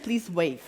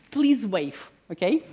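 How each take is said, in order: First: Said in the usual way. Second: Breathy whisper through a laugh. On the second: Real, not acted. Speaker teasing the audience, laughing whisper. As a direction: whisper it with a chuckle.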